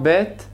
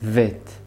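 First: The word begins with a b sound. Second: The word begins with a v sound. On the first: "במקום בית" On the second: "אומרים וית"

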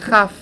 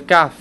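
First: The word begins with a raspy kh sound. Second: The word begins with a hard k sound. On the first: "כאשר זה בלי דגש, זה כף" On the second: "כאשר זה עם דגש, זה כף"

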